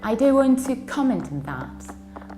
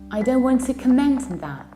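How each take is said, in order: First: The stress is on the first syllable. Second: The stress is on the second syllable.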